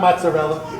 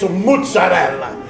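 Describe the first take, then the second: First: It is pronounced the plain English way. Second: It is pronounced in an Italian style. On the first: The speaker calls it wrong. "it's not mozzarella" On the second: The speaker calls it right. "It's a mozzarella"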